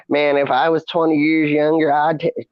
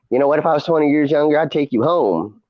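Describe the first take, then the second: First: Imitation Mississippi gentleman's accent, pitched up; Mississippi Hickerson accent. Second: Quick, imitated older Chicago barfly; Chicago accent. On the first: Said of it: "I was doing the Hickerson accent". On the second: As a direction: play a tipsy Chicago woman hitting on someone. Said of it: "she was from Chicago".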